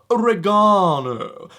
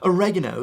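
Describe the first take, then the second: First: It is said in a British accent. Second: It is said in an American accent. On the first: "You have to do it with that accent as well" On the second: "like they do in the U S"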